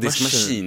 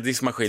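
First: The word is said in a posh accent. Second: The word is said in an ordinary accent. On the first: The speaker calls it right. "utan diskmaskin, det är lite finare" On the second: The speaker calls it wrong. "man kan inte säga diskmaskin"

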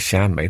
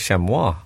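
First: It is said with an English pronunciation. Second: It is said with a French pronunciation. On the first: "surely the French don't say chamois" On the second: "They must say chamois"

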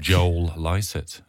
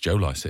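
First: The words run together, sounding like Joel Lycett. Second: The words stay separate, sounding like Joe Lycett. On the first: The speaker calls it wrong. "you could easily roll it into Joel Lycett" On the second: The speaker calls it right. "it's Joe Lycett, isn't it?"

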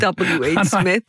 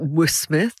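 First: Each letter is said separately before Smith. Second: The letters are run together into one word. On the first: The speaker calls it right. "not realizing it was like W.H. Smith" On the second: The speaker calls it wrong. "I kept pronouncing it W.Smith"

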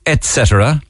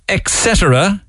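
First: The word begins with an 'et' sound. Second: The word begins with an 'ex' sound. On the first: The speaker calls it right. "It's actually etc" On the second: The speaker calls it wrong. "Where you put in an X where there's none"

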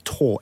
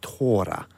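First: The name is said as one syllable. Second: The name is said as two syllables. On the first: The speaker calls it wrong. "it's Thor" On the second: The speaker calls it right. "It's actually Tora, I believe"

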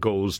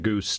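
First: It is one syllable rhyming with 'nose'. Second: It is one syllable rhyming with 'loose'. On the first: "you get anything from goes" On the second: "to goose to whatever"

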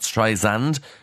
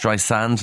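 First: The middle consonant is a buzzing Z sound. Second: The middle consonant is a hissing S sound. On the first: The speaker calls it wrong. "not Streisand, with a Z" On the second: The speaker calls it right. "It's [name]"

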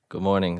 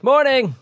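First: It is said flatly, without enthusiasm. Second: It is said with lively radio enthusiasm.

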